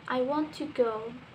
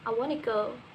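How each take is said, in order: First: Each word is said separately and fully. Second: The words are joined smoothly and quickly. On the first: "in the textbook, we say" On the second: "naturally we can say"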